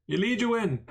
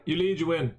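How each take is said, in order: First: "You lead, you win" pitched higher in a put-on character voice. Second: Said in the usual way. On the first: Streamer repeating his poker motto in a playful higher voice.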